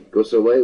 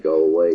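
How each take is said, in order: First: The first word is said as a short 'guss'. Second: The first word is said as a plain 'go'. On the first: This is how people in another town say it. "And Saint Just, you say, guss away with it" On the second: This is how people in one town say it. "what Saint Ives, you say, go away"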